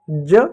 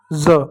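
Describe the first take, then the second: First: ज said with a j as in jam; plain j sound. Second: ज said as a buzzing z; dotted z sound. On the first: Teacher repeating the undotted letter, j sound. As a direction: say ज as English j. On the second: Teacher repeating the dotted letter, z sound. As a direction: say ज like English z. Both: Shown as a demonstration. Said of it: "नीचे बिंदी लग जाए".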